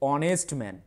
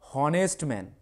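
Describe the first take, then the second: First: The first word begins with a vowel sound. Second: The first word begins with an h sound. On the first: The speaker calls it right. "কিন্তু উচ্চারণ হচ্ছে অনেস্ট man" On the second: The speaker calls it wrong. "আমাদের উচ্চারণ কি হওয়া দরকার? হনেস্ট man"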